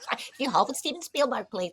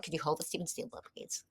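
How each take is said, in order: First: Operator line repeated through a laugh, quick and higher; laughing retelling. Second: Quick, soft imitation of a formal operator; hotel operator. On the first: Retold or imitated. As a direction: say it again, laughing at the memory. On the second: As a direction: lightly mimic the polite phone operator. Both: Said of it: "And it was just like".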